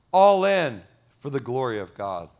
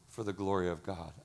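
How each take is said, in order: First: Loud first words, falling in pitch; emphatic declaration. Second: Low, soft, falling line; reverent repeat. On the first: Pastor rallying congregation for God's glory, emphatic. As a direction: proclaim it firmly from the pulpit. Preaching climax, then softer repeat. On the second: Pastor letting God's glory sink in, hushed reverence. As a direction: let it sink in quietly. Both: Real, not acted.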